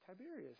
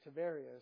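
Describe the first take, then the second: First: The name is said in the English way. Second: The name is said in the Hebrew way.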